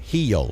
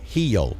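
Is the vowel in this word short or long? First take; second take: long; long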